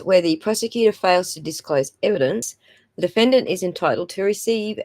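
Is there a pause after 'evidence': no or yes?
yes. There is a break after the word evidence. The speaker calls it wrong.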